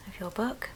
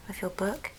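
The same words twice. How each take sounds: The two takes are said the same way.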